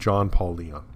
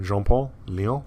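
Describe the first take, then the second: First: The name is said with an American accent. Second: The name is said with a French accent.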